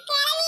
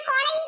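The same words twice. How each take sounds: First: Put-on கிளவி said with an i sound after k, the old-woman word; கிளவி, the wrong word, first vowel i; misheard word. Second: குளவி said with a u sound after k, the wasp word; குளவி stressed with a rising tune; correct word. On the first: Boy correcting his friend, saying the misheard கிளவி. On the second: Boy correcting his friend, stressing குளவி. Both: Shown as a demonstration. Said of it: "கூப்பிட்ட கிளவி இல்லடா".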